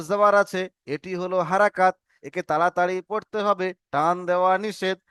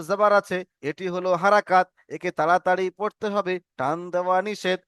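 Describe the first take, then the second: No difference in how they are said.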